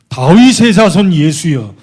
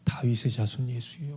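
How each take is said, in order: First: It is said loudly and urgently. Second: It is said quietly and weakly.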